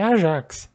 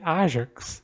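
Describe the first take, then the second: First: The stress is on the last syllable. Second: The stress is on the first syllable. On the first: The speaker calls it wrong. "em português não é Ajax" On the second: The speaker calls it right. "Também é acentuado esse A"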